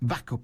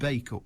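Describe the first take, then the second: First: The first syllable sounds like 'back'. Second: The first syllable sounds like 'bake'. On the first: The speaker calls it wrong. "Your reader said back up instead of bake up" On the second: The speaker calls it right. "because we've known it was bake up for years"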